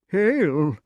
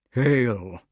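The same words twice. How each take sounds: First: High, eager echo of a greeting; high-pitched kingly salutation; dotty king. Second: Even, weighty greeting; measured salutation in the usual pitch; solemn wizard. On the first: Pellinore echoes Merlin's greeting. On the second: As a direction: intone it gravely as a magician. Merlin's greeting, echoed by king. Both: Acted.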